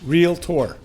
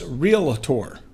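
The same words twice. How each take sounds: First: It is said with two syllables. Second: It is said with three syllables. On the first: The speaker calls it right. "two syllables" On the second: The speaker calls it wrong. "as realtor"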